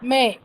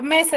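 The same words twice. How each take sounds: First: "Me" held long and stressed on its own; stressed syllable drawn out. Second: Said in the usual way. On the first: Shown as a demonstration. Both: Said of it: "¿es una palabra gra".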